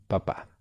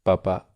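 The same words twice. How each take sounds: First: Papá with the final á stressed; stress on last syllable. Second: Papa with the first pa stressed; stress on first syllable. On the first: Teacher offering the other option, final stress on papá. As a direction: land on the second syllable of papá. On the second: Teacher quizzing student on which was meant, first-syllable stress on papa. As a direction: put the weight on the opening syllable of papa. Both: Shown as a demonstration. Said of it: "cuando decía".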